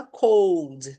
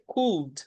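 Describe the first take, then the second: First: "cold" said like the English word for frio, with a long o; the mistaken "cold", said with a long o as in frio; pronúncia errada de "cold"; wrong pronunciation. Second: "cold" said as could, with a short u sound and no l; the right way: "cold" said like could, short u; pronúncia correta de "cold" como could; correct could. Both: Shown as a demonstration. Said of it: "atenção à pronúncia cold".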